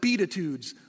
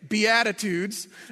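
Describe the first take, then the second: First: The start sounds like the words 'beat it'. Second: The start does not sound like 'beat it'. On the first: The speaker calls it wrong. "pronounced just like it's spelled, Beatitudes, like beat it" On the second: The speaker calls it right. "pronounce it incorrectly"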